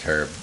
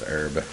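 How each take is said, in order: First: It is said the British English way. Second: It is said the American English way. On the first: "in British English, it- it's herb" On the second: "In American English, it's herb"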